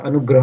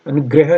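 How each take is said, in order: First: अनुग्रह said "anu-grah", with a after gr; correct middle vowel. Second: अनुग्रह said "anu-greh-a", with e after gr; faulty anugreha; wrong middle vowel. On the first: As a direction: say अनुग्रह with a clear "gra". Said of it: "अनुग्रह होता है". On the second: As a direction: say अनुग्रह with "gre" for gra. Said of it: "अनुग्रह नहीं होता". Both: Shown as a demonstration.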